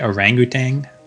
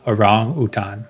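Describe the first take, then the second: First: It is pronounced the English way. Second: It is pronounced the Indonesian way. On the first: "in English people say orangutan" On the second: "like the pronunciation from Bahasa Indonesia"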